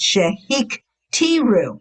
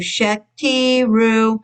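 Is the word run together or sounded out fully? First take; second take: sounded out; run together. First: The word is said carefully with every syllable sounded. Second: The word is said quickly with syllables run together. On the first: The speaker calls it right. "It's shahik tiru" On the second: The speaker calls it wrong. "A lot of them go shekti ru"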